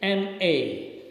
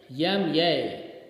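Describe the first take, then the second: First: The letter names start without a y sound. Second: Each letter name starts with a y sound. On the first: This is how British speakers say it. The speaker calls it right. "the correct pronunciation is M A" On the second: This is how South Indian speakers say it. The speaker calls it wrong. "people would speak yam yay"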